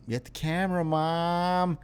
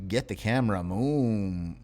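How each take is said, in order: First: "mom" said properly with a short o, pitched higher; corrected mom. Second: "moom" said with a long oo like "moo-m"; misread moom. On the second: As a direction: stretch "moom" into an oo vowel, rhyming with room. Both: Shown as a demonstration. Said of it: "I read that as moom".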